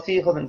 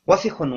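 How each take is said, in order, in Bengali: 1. প্রথম স্বরটি টেনে দীর্ঘ করা হয়। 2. প্রথম স্বরটি ছোট ও দ্রুত। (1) "এটা ভুল উচ্চারণ" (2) "এই শব্দটা দ্রুত করতে হবে, কোথাও কোনো মদ নেই, টান নেই।"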